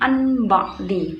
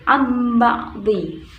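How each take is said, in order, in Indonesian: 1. Bunyi sengau sebelum b terdengar seperti n. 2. Bunyi sengau sebelum b terdengar seperti m. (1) "bukan anba'di" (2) "tetapi amba'di"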